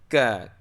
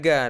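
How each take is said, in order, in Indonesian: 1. Konsonan ini tak bersuara, seperti k. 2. Konsonan ini bersuara, seperti g. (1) "tapi ka" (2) "Bukan ga"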